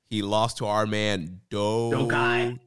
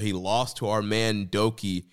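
First: The name is said slowly and clearly enunciated. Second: The name is said quickly and hard to catch. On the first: The speaker calls it right. "Slow down, enunciate" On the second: The speaker calls it wrong. "You said Doki way too fast"

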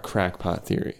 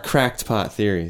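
First: It is said crackpot, with no t sound. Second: It is said cracked pot, with a t sound. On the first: The speaker calls it wrong. "I always say that wrong" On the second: The speaker calls it right. "Let's try that again"

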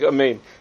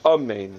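First: The first vowel is clipped and barely pronounced. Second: The first vowel is a full, clear 'ah' sound. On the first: The first vowel is left out. The speaker calls it wrong. "He doesn't pronounce the kamatz under the aleph. So it sounds like amen" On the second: The first vowel is given its full value. The speaker calls it right. "instead of amen"

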